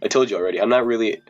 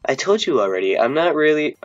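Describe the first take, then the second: First: It is said in the speaker's own voice. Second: It is said in a put-on girl's voice.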